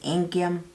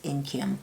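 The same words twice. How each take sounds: First: The name is said with a Nigerian accent. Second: The name is said with an American accent. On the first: "But it's Inkim" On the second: "I pronounce it American"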